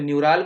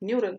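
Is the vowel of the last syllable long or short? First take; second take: long; short. First: The last syllable has a long 'aal' vowel. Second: The last syllable has a short 'al' vowel. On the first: The speaker calls it wrong. "न्यूराल बोलते हैं" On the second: The speaker calls it right.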